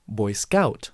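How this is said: The stress is on the second word. This is the older way of saying it. "the stress used to be in the second word"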